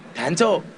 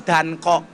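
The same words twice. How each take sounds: First: "Danco" with a ch sound; Javanese reading. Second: "Danko" with a hard k; original pronunciation. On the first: Comedian shows how Javanese read the name, "Danco" with a ch. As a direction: say "Danco" as Dan-cho. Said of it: "Orang Jawa bacanya Danco". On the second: Comedian shows the hard-to-say original name, "Danko" with a k. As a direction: say "Danko", k sound before the o. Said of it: "Karena susah ngomong Danko". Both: Shown as a demonstration.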